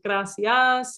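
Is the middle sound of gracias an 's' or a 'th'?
s. The middle consonant is a plain 's' sound. This is how people in Mexico say it. "instead of gracias"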